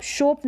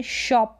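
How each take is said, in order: First: शोप as "shohp"; शोप with a rounded vowel; wrong long o. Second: शॉप as "shawp"; open short o. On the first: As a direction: say शोप with a closed "oh". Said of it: "शोप नहीं बोलेंगे". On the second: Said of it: "शॉप बोलेंगे". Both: Shown as a demonstration.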